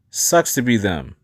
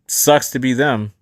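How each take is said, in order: First: It is said in a warmer, feeling tone. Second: It is said in a cooler, more detached tone. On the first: The listener feels the other person's trouble with them. "Empathy is, ... You hear the tone shift in there" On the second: The listener understands the other person's trouble from outside. "that's compassion"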